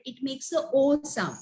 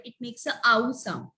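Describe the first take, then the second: First: "O" said as a long "oh"; round, plain "oh" on "O"; long O sound. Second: "ow" said as in brown; "ow" rhyming with cow; ow sound. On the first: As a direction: demonstrate "O" as the vowel in goat. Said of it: "at the end of the word". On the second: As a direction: demonstrate "ow" as a gliding "ah-oo". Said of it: "in the starting or in the middle". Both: Shown as a demonstration.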